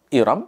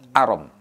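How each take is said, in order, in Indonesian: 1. Vokal pertamanya bunyi 'i'. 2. Vokal pertamanya bunyi 'a'. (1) "dengan memkasrohkan hamzah" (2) "memfathahkan hamzah"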